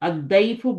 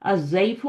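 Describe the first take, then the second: First: The main consonant is a heavy 'd' sound. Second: The main consonant is a 'z' sound. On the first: The speaker calls it right. "अद्दैफु बोलते हैं" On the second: The speaker calls it wrong. "अज़ैफु नहीं बोलते"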